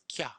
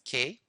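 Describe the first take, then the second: First: The word uses a ya vowel sound. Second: The word uses a plain e vowel. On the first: The speaker calls it right. "we pronounce Kya" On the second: The speaker calls it wrong. "he pronounces K"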